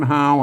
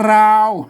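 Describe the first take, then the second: First: The word begins with an H sound. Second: The word begins with an R sound. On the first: "เขาก็เปลี่ยนเป็นฮ" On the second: "อ่านว่าราว"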